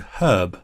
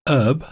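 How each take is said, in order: First: The word begins with an audible h sound. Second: The word begins with a vowel, h silent. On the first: "in U K English, they would pronounce that word herb, presumably because there's an H at the start of it" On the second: "the Americans call it herb, and they would say an herb"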